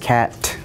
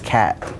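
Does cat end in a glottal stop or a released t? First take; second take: released t; glottal stop. First: The word ends with a clearly released t. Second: The word ends with a glottal stop. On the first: The speaker calls it wrong. "Nobody says cat" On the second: The speaker calls it right. "Everybody just says cat. So it's a stop in your throat"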